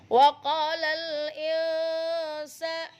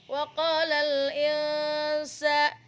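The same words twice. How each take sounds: No difference in how they are said.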